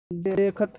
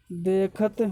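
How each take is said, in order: First: देखत with the दे drawn out long; long vowel in देखत. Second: Said in the usual way. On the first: Shown as a demonstration. Teacher showing the class a long दे in देखत. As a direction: stretch the दे in देखत so it takes two beats. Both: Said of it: "दे में ज़्यादा time लग रहा है".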